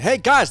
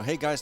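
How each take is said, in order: First: It is yelled very loudly. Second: It is said at normal loudness.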